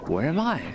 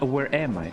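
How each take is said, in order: First: "Where am I?" rising high, then falling sharply on "I", British style; right British inflection. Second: "Where am I?" with the fall on "am", not quite British; wrong British inflection. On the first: Streamer showing the right British tune on "Where am I?". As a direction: lift "Where am I?" and drop it on "I", British. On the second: Streamer showing the wrong British tune on "Where am I?". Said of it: "It is, it is not". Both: Shown as a demonstration.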